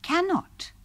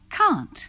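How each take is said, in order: First: It is said as two syllables, can and not. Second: It is said as one contracted syllable. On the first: This is the full negative form. "Bentuk menyangkalnya terdiri dari can dan not" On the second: This is how it is said in everyday conversation. "Dalam percakapan sehari-hari, bentuk menyangkal tadi diucapkan"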